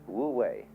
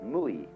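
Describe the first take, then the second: First: It is said as two syllables, woo way. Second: It is said as one short word, moo-ee. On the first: "It's called in Chinese Wu Wei" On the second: "In Japanese"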